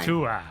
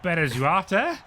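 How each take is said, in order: First: The surname ends with the sounds 'artua'. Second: The surname ends with the sounds 'arte'. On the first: The speaker calls it right. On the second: The speaker calls it wrong.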